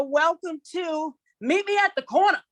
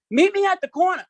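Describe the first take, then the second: First: Called out title. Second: High, loud call of Meet me at the corner, hand to mouth; yelling up the street. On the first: Shown as a demonstration. Host announcing the show title in a high sing-song call. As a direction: announce it like calling down the block. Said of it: "you gotta say it like that". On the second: Retold or imitated. Kid calling a friend from the street, high loud yell. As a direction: holler it down the block to a friend. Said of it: "you gotta yell like you're yelling up the street".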